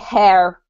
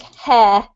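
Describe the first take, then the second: First: The word ends with a clear R sound. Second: The word ends without any R sound. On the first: "they would say hair with the R" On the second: "there's no sound at all after the R"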